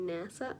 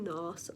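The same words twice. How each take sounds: First: It is pronounced the usual American way. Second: It is pronounced in an unusual, non-American way. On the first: "Americans say NASA" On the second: "I say NASA because I like to say things weird"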